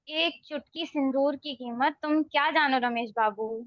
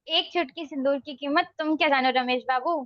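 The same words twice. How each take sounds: First: It is said in a disgusted tone. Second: It is said in an angry tone.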